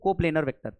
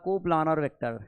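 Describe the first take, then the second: First: The second syllable has an 'ay' vowel. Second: The second syllable has an open 'ah' vowel. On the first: The speaker calls it right. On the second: The speaker calls it wrong. "वैसे प्लानर नहीं बोलना चाहिए"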